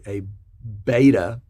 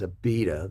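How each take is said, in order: First: It is said with an American pronunciation. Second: It is said with an Australian pronunciation.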